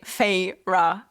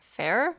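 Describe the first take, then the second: First: The name is said as two syllables. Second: The name is said as one syllable. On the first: The speaker calls it right. "The two syllables of her name" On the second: The speaker calls it wrong. "I kind of thought she would be pronounced like fair"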